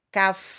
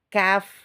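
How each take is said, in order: First: It is said thin, with the sound forward. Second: The same.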